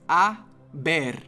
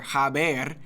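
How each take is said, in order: First: The word starts directly with the vowel. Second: The word starts with an audible h sound. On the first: The speaker calls it right. "the H in Spanish is always silent" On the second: The speaker calls it wrong. "or haber"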